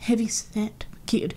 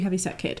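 First: It is said in a sneering, contemptuous tone. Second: It is said in a plain, neutral tone. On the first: The child is being mocked for their weight. The speaker calls it wrong. "they're just kind of being fat phobic" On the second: The child is simply described as a bit chubby. The speaker calls it right. "the kid's a bit chubby. That's okay"

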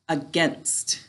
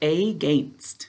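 First: It is said with its ordinary everyday pronunciation. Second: It is said with a pronunciation that mirrors spelling.

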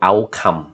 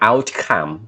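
First: The word is said in a plain accent. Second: The word is said in an exaggerated affected accent.

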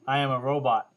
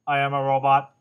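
First: It is said in his normal voice. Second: It is said in a put-on robot voice.

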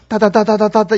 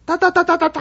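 First: The burst is at a lower, ordinary pitch. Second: The burst is an octave higher in pitch. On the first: The husband is attacking verbally. "우리 아저씨가 따다다다다다 이럴 때" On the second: The wife fights back louder than him. "한 옥타브 더 올려서"

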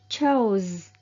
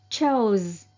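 Both takes have the same delivery.

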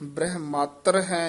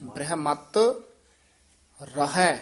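First: The two words are run together without a break. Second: A short pause separates the two words. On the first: The speaker calls it wrong. "नहीं कहना" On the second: The speaker calls it right. "नखेर के पढ़ना है ... थोड़ा जा रुक के बोलेंगे"

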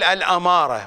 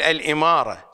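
First: The first vowel after the hamza is 'a'. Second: The first vowel after the hamza is 'i'. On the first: This is the correct form of the term. The speaker calls it right. "فلا تقول الأمارة" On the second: This is the mistaken form that gets used. The speaker calls it wrong. "وإنما تقول الإمارة"

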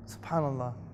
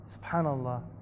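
Both takes have the same delivery.

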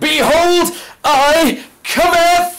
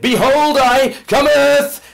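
First: It is said loudly with great force. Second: It is said in a calm, plain way.

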